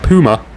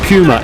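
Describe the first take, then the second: First: The first syllable sounds like 'poo'. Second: The first syllable sounds like 'pew'. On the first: The speaker calls it wrong. "Not Puma. Puma, I don't like poo" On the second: The speaker calls it right. "pew pew pew pew pew pew pew Puma"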